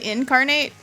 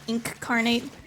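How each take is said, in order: First: The first syllable sounds like 'in'. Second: The first syllable sounds like 'ink'. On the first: "I always say incarnate" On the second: "it's like spelled like ink-carnate"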